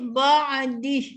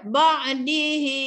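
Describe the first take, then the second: First: The word stops on a bare h, no vowel. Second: The final vowel after h is drawn out long. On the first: The reader stops at this word. "Ketika waqaf kita matikan huruf ha itu" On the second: The reader continues into the next word. "Kena panjangkan melebihi dua harakat, iaitu 4 atau 5 harakat"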